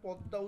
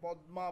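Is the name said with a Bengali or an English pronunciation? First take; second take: Bengali; English. First: The name has a Bengali pronunciation. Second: The name has an English pronunciation. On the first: "আমরা যদিও পদ্মা উচ্চারণ করি" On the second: "ইংলিশে এটাকে পদ্মা বলা হয়"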